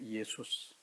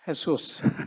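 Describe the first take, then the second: First: The name begins with a 'y' sound. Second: The name begins with an 'h' sound. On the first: "그리스 말로는 뭐냐?" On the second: "스페니시로는"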